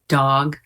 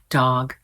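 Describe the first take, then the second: No difference in how they are said.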